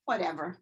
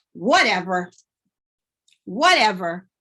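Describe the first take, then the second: First: Soft, dismissive "Whatever"; muttered "Whatever"; quiet attitude. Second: Loud dismissive "Whatever". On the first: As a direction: brush them off under your breath. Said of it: "but you could hear it". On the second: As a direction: punch out "Whatever" louder. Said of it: "Sometimes they're shouting". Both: Shown as a demonstration.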